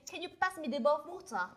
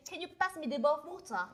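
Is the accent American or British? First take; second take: British; British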